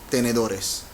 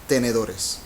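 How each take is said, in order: The two takes are said the same way.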